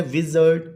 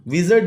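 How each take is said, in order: First: विज़र्ड in two beats, विज़-अर्ड; syllable by syllable. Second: Said in the usual way. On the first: Shown as a demonstration. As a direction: divide विज़र्ड after विज़. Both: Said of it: "two syllable word है".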